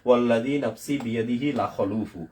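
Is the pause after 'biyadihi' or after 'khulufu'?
after khulufu. The pause comes after 'khulufu', not after 'biyadihi'. The reader does not understand the meaning. The speaker calls it wrong. "এখানে এসে আমি থামলাম। তাহলে ওই যিনি শুনবেন তিনি বুঝবেন যে আমি অর্থ বুঝতেছি না"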